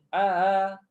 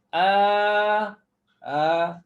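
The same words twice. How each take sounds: First: The first vowel runs straight into the second. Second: The first vowel is lengthened before the second. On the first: The speaker calls it wrong. "Itu langsung tanpa idkhal alif" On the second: The speaker calls it right. "Panjangkan dua harakat dulu"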